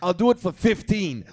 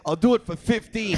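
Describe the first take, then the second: First: Slow haggle. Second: Higher pleading repeat. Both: Retold or imitated. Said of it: "il me crie après".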